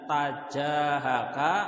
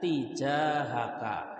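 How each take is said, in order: First: The first syllable has the vowel a. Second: The first syllable has the vowel i. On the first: "ta ya boleh" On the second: "ti juga boleh"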